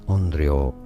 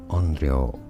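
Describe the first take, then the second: The two takes are said the same way.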